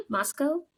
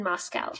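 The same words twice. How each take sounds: First: "Moscow" ending in -koh, pitched up; unsure alternative pronunciation. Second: Said in the usual way. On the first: Shown as a demonstration. Reader guessing the local way, "Moscow" as a questioning MOS-koh. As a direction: query "Moscow" with a long o at the end. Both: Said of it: "How do they say?".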